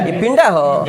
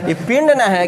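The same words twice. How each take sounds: First: पिंडा with an added long final "aa"; dialect पिंडा. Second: Said in the usual way. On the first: Shown as a demonstration. Teacher jokes with class over the word pind, पिंडा ending in a broad "aa". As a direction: draw पिंड out into पिंडा, ending on "aa". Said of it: "कहो तो यो सर पिंडा हो".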